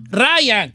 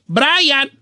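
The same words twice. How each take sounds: First: Ryan said without the B sound, rajan; host shows the B falling off Bryant; B dropped, Ryan. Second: Brian said with a clear B, bɾajan; host shows the B that should be heard in Brian. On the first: Dropping the B to say Ryan. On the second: Pronouncing Brian with the B. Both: Shown as a demonstration. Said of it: "se cae la B".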